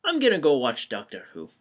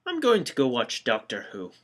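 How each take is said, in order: First: Put-on quicker retry, the Scottish accent still there; fast Scottish accent that won't go away. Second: Put-on slipping into a Scottish accent; accidental Scottish accent, tossed off. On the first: Retrying the exit line, stuck in a Scottish accent. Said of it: "Still Scottish, damn it". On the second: Bored of the old men, leaving in a Scottish accent. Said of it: "I don't know why I'm Scottish now".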